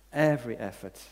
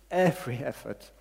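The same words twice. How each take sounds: The two takes are said the same way.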